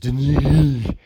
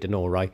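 First: The name ends without an 'ah' vowel. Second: The name ends with an 'ah' vowel. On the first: The speaker calls it wrong. "which is how the Sky commentator pronounced it" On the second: The speaker calls it right. "There's got to be an A on the end of it"

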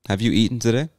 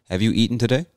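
No difference in how they are said.

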